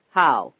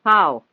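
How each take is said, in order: First: Low, loud one-word question; pressing question. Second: Loud, raised, insistent question; insistent repeat. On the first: Reporter asking how it was fixed, pressing. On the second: Reporter repeating his question after the delay, insistent. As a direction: push the question harder and louder. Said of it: "he repeated". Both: A narrator's reading.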